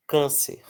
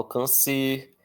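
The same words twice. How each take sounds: First: Câncer with the first syllable CÂN strong; stress on CÂN. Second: Câncer wrongly stressed on the last syllable, CER; stress moved to CER. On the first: Teacher reads an example word, stress on CÂN. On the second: Teacher shows how nobody says câncer, stress on CER. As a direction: say can-CÊR, strong ending. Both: Shown as a demonstration. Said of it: "Eu não falo câncer".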